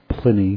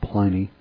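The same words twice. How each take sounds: First: The first vowel is short, as in 'pin'. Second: The first vowel is long, as in 'pine'. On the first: The speaker calls it right. "they didn't have long vowel sounds in Latin, so it's pronounced Pliny" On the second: The speaker calls it wrong. "not Pliny"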